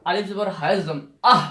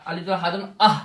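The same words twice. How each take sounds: First: আহ with a heavy, throaty breath; আহ: a thick, rough breath out of the throat. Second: আহ with a light, thin breath. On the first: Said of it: "এই হাটা কিন্তু মোটা". (আহ মোটা হা উচ্চারণে) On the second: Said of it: "আগের হাটা ছিল ওটা চিকন". (আহ চিকন হা উচ্চারণে) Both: Shown as a demonstration.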